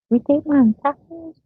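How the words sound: It is said in an imitated, put-on voice. "She said"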